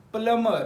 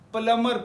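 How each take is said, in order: First: The b sound is silent after the m. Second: The b sound is silent after the m.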